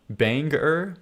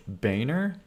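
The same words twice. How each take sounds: First: Banger? with a clear "bang" vowel and a hard g; corrected banger. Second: Boehner? said with a soft, nasal first vowel like "bay-ner"; the Boehner way he's teased about; his usual Boehner. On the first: Streamer testing chat's fix, saying Banger with a clear bang and hard g. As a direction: try Banger? the way chat spells it. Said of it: "is that how it's supposed to be". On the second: Streamer repeating the word chat mocks, Boehner with a bay vowel. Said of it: "what is the wrong way to say Boehner". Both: Shown as a demonstration.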